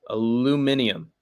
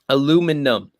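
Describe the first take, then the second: First: The word is said with five syllables. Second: The word is said with four syllables. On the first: The speaker calls it right. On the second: The speaker calls it wrong.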